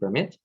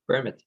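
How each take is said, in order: First: The stress is on the second syllable. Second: The stress is on the first syllable. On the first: "In the second case, the stress is on the second syllable" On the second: "in the first case, the stress is on the first syllable"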